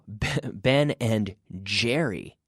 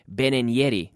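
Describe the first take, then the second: First: The name starts with a voiced j sound. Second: The name starts with a y sound. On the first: The speaker calls it right. "No, no, Ben and Jerry" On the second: The speaker calls it wrong. "We're not saying y"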